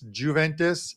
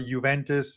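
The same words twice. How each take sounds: First: The opening J sound is clearly pronounced. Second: The opening J sound is not pronounced. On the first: The speaker calls it wrong. "It drives me nuts when people call" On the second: The speaker calls it right. "the J is silent"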